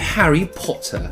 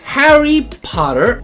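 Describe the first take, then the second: First: It is said in a British accent. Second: It is said in a non-British accent.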